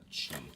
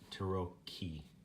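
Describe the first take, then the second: First: The 'cchi' is said with a soft CH sound. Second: The 'cchi' is said with a hard K sound. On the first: The speaker calls it wrong. "not chi" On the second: The speaker calls it right. "So it's uh"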